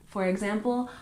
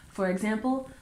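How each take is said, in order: No difference in how they are said.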